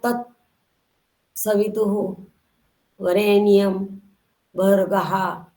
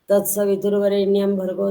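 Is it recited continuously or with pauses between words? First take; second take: with pauses; continuously. First: Each word is separated by a pause. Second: The words run together without any pauses. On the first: "एक एक शब्द तोड़ के उसके बाद pause करके" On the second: "अनवरत उच्चार किया जाता है, अखंडित उच्चार"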